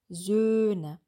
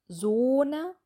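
First: The first vowel is a front rounded ö. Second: The first vowel is a back rounded o. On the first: The speaker calls it right. "sondern Söhne" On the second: The speaker calls it wrong. "Es ist nicht Sohne"

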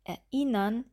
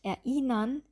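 Both takes have the same delivery.

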